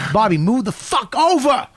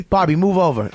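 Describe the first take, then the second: First: Higher, impatient retold command; angry order. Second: Said in the usual way. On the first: Patrice orders Bobby to shift over, mock angry outburst. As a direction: snap it as a repeated order. Order repeated, acted quarrel.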